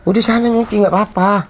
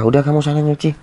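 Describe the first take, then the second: First: High, tearful urging; pretending to be fine through tears; holding back tears. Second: Said in the usual way. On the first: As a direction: push her away while your voice cracks. Hides tears, sends wife away.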